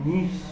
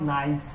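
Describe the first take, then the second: First: It is said 'neesh', ending in 'sh'. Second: It is said like 'nice', ending in 's'. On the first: The speaker calls it right. "এটা নিশ" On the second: The speaker calls it wrong. "এটা কিন্তু not নাইস"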